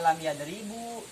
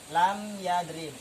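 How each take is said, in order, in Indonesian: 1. Kata kedua berakhir dengan vokal akhir u. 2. Kata kedua berakhir tanpa vokal akhir. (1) "Tidak dibaca" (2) "sehingga dibacanya lam yadrib"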